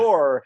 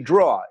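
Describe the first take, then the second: First: The final R is pronounced. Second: The final R is dropped.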